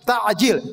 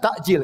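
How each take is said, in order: First: The middle consonant is a pharyngeal ain sound. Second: The middle consonant is a glottal stop. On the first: It means hastening. The speaker calls it right. "tapi harus pakai ain" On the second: It means delaying. The speaker calls it wrong. "jangan pakai hamzah"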